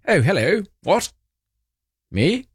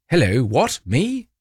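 First: Imitating the king's surprise, pitch rising higher through Oh, hello, what? Me?; a hammed-up startled royal, lightly voiced; mock surprised king. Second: Mock Charles. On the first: Host mimics King Charles in a photo, mock surprised. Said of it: "You can tell he's thinking". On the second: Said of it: "Like that".

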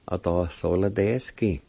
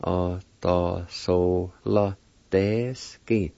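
First: Said in the usual way. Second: "Otosolodesky" very slow, syllable by syllable; broken into syllables. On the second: Shown as a demonstration. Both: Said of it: "it's pronounced like this".

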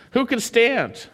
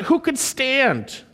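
First: Said in the usual way. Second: "who could stand?" drawn out slowly, weight on "who"; slow way down and lean on "who"; slow emphatic question. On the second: Shown as a demonstration. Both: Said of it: "it's emphatic".

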